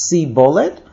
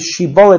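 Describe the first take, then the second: First: The word begins with an 's' sound. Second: The word begins with a 'sh' sound. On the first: The speaker calls it wrong. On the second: The speaker calls it right.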